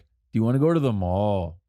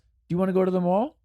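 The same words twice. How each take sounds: First: The voice does not rise at the end. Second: The voice rises at the end. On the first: "In Greece, in, in the Greek language, we ask, like" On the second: "The question kind of goes up at the end of it"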